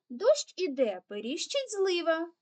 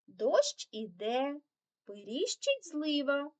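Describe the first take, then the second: First: The phrase is read very fast. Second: The phrase is read fast. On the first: "Тепер ще швидше" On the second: "прочитати цю скоромовочку уже швидше"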